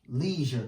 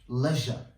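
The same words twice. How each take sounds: First: It is said with an American accent. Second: It is said with a British accent.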